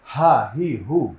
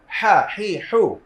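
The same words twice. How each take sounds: First: হ্যাঁ, হি, হু light from an open throat; easy h series. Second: হ্যাঁ, হি, হু squeezed from mid-throat, loud; pressed h series. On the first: Teacher showing the opposite, হ্যাঁ, হি, হু unpressed. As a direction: say হ্যাঁ, হি, হু with no squeeze. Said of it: "তার বিপরীতে সহজভাবে". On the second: Teacher leading the class, হ্যাঁ, হি, হু tightly pressed. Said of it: "আমরা একটু চাপিয়ে পড়বো". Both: Shown as a demonstration.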